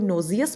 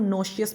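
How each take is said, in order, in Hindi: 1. बीच का व्यंजन z जैसी ध्वनि है। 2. बीच का व्यंजन sh ध्वनि है। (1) "आप इसको नोजियस भी कह सकते हैं" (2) "और नोशियस भी कह सकते हैं"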